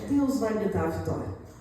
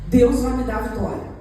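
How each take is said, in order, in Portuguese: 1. É dita num tom mais fraco e desanimado. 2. É dita como uma afirmação firme e confiante. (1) "a sua tonalidade muda" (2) "você sai da igreja com a frase"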